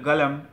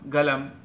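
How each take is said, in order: No difference in how they are said.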